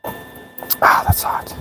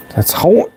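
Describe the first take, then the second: First: Pained whisper; burnt fingertips. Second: High pained yelp of words; burnt fingertips. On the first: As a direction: hiss it through the burn. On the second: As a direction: squeak it out, stung. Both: Real, not acted. Burns fingers on hot metal.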